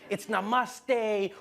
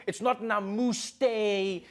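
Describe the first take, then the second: First: "namaste" with an open "ah" in the middle; corrected namaste. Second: "namuste" with a drawn-out "moo" in the middle; mispronounced namaste. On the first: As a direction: say "namaste" slowly, middle vowel as ah. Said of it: "it's not namuste, it's namaste". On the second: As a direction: say "namuste" slowly, middle vowel as oo. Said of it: "People were coming on like". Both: Retold or imitated.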